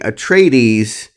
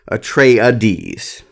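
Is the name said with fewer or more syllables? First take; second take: fewer; more. First: The name is said with one syllable fewer. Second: The name is said with an extra syllable. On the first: The speaker calls it wrong. "apparently I was saying Atreides" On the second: The speaker calls it right. "there's an extra syllable"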